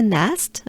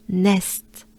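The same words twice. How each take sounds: First: Said in the usual way. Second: Nest in a French accent. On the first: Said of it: "Just like a nest". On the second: Shown as a demonstration. Teacher modelling the town's name, nest with French accent. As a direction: give nest a French pronunciation. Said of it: "with a French accent".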